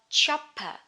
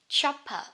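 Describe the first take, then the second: Both takes have the same delivery.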